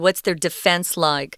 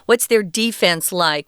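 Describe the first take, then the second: First: The stress is on the second syllable. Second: The stress is on the first syllable. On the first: It refers to protecting oneself. The speaker calls it wrong. "We wouldn't say" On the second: It refers to a team's defending players. The speaker calls it right. "it's also pronounced defense if you're talking about things like uh, uh, sports"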